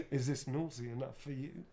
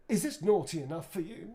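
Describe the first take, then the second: First: Said in the usual way. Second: Louder, higher cheeky in-character delivery; lightly voiced flirty Nick; Nick Lightbearer line. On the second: Actor performs Nick's pickup line for fans, cheeky. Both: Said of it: "Nick would say".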